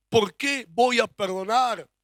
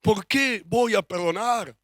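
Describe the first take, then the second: First: Slower, weighing each word; slower question. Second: Slow, deliberate question. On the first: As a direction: let the question sink in slowly. (pregunta aún más lenta) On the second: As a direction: ask it slowly to make them think. (pregunta lenta y pensativa) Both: Shown as a demonstration.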